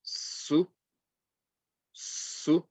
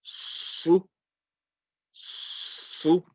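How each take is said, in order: First: Su said light and hissed, higher; a thin, light su; light sin. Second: Su pressed hard against the teeth, higher; a strong, heavy su; heavy sad. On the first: Teacher modelling light sin. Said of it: "Sin is going to be". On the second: Teacher contrasting sad with sin. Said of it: "and the sad is going to be". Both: Shown as a demonstration.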